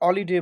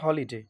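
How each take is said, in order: First: The word starts without an h sound. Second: The word starts with an h sound. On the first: The speaker calls it wrong. "অলিডে বা অন্যভাবে উচ্চারণ হয় না" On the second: The speaker calls it right. "এখানে হইছে কি হলিডে"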